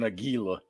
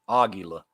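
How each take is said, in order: First: The stress is on the second syllable. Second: The stress is on the first syllable. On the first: The speaker calls it wrong. "I emphasize the gi" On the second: The speaker calls it right. "the emphasis is on the first"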